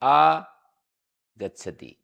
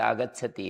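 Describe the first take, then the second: First: There is a break after the first syllable. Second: The word is said joined, without any break. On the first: The speaker calls it wrong. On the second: The speaker calls it right.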